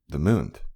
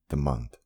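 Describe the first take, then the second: First: The word is pronounced in an unusual, altered way. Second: The word is pronounced in the ordinary way.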